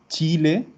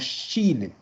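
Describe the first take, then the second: First: The word begins with a ch sound. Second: The word begins with a sh sound. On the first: This is the socially accepted pronunciation. The speaker calls it right. "el sonido correcto es decir Chile" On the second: This is the socially stigmatized pronunciation. The speaker calls it wrong. "y no Chile"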